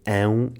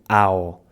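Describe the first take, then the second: First: The diphthong is nasal. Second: The diphthong is oral. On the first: The speaker calls it right. "o ditongo nasal ão, que se lê ão" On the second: The speaker calls it wrong. "e não ao"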